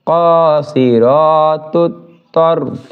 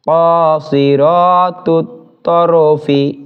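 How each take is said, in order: First: The last word ends on a bare consonant. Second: The last word ends with a short i vowel. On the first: The reader stops at this word. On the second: The reading continues without a stop.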